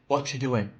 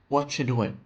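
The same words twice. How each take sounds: First: The words blend together with reduced sounds. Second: The same.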